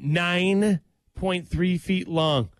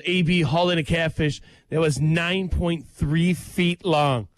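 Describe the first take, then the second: First: "Nine point three feet long" dragged out slowly, stress on "Nine"; slow, emphatic repeat. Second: Said in the usual way. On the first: Shown as a demonstration. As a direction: spell out each word slowly, leaning hard on "Nine". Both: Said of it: "Let me say that again".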